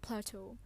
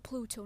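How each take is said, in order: First: The first vowel is an 'ay' sound. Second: The first vowel is an 'oo' sound. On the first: The speaker calls it wrong. "not Plato. I've mispronounced it the whole time" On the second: The speaker calls it right. "a Pluto"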